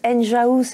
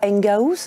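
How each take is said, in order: First: The g is soft, like j in ingénieur. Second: The g is hard, like g in gare. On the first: The speaker calls it right. "on prononce Enjahouse" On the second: The speaker calls it wrong. "et non pas Engahouse"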